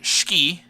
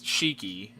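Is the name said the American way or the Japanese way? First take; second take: Japanese; American. First: The name is said with Japanese pronunciation. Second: The name is said with American English pronunciation. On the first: "as they pronounce it in Japanese" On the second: "as I would read it"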